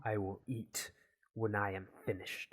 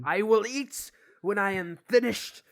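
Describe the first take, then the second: First: Measured scientist voice, held down; controlled stubborn refusal. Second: Loud, high shout of a stubborn scientist; angry shouted refusal. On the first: Gavin refuses the Hot Pocket, controlled firmness. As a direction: refuse firmly without raising the voice. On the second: Gavin snaps at nagging friend, angry shout. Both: Acted.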